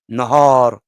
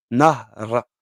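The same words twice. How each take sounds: First: "Nahar" slow, with the long A held out between h and r; jour: "Nahar", le A long bien appuyé; long vowel stressed. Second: "Nahra" with the A between h and r swallowed, no long vowel; fleuve: "Nahra", voyelle avalée; clipped river Nahar. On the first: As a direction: stretch the A in "Nahar" as in day. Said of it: "pour bien accentuer sur le, le, la voyelle longue". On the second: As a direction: run "Nahra" straight through, no held A. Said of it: "comme si tu mâchais le A entre le ha et le ra". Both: Shown as a demonstration.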